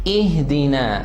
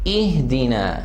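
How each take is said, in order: Both takes have the same delivery.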